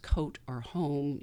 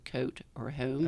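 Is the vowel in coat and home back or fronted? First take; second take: back; fronted. First: The O vowel is pronounced far back. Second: The O vowel is moved toward the front.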